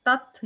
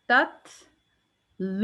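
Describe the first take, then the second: First: तत् stopped dead with no breath; तत् clipped without whisper; wrong clipped take. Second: तत्लूना slowly, with the second त released as breath; तत्लूना with audible whisper. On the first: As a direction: cut तत् short, no puff of air. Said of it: "तो वो whisper की आवाज़ ... आ ही नहीं रही". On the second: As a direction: drawl तत्लूना and let air out on त. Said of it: "तो मैंने कहा है". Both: Shown as a demonstration.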